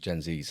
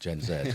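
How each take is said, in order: First: Z is said the American way, as zee. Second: Z is said the British way, as zed.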